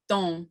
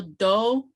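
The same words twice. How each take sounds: First: Don with the O sent through the nose; nasalized Kiowa O; nasal O. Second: Plain Kiowa O; oral O. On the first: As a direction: let don resonate in the nose. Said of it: "with the nasal". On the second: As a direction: do with a clear oral O like Play-Doh. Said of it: "without the nasal". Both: Shown as a demonstration.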